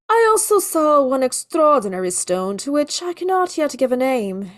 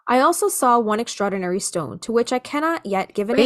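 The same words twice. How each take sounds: First: It is read in a put-on Victorian accent. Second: It is read in the speaker's normal voice.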